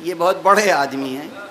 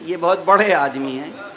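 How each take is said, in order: First: It is said in a changed, mocking tone. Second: The same.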